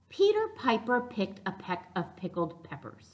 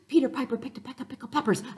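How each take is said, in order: First: It is said at a normal, steady speed. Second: It is said quickly, faster than before.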